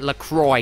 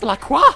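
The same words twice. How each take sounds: First: The name is given an American pronunciation. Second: The name is given a French pronunciation. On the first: The brand owners may choose how to say it. The speaker calls it wrong. "we're gonna pronounce it LaCroix because we're American" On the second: A French name should be said as French. The speaker calls it right. "You gave it a French name!"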